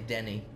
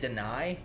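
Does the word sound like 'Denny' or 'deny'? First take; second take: Denny; deny. First: The word sounds like 'Denny', ending in 'nee'. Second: The word sounds like 'deny', ending in 'nigh'. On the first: The speaker calls it wrong. "but I'd say Denny" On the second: The speaker calls it right. "they'd say deny"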